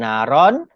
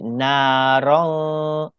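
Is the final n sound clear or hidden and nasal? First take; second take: clear; hidden nasal. First: The final n is pronounced clearly. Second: The final n is hidden in a nasal sound. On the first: The speaker calls it wrong. "bukan naron" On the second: The speaker calls it right. "tapi narong"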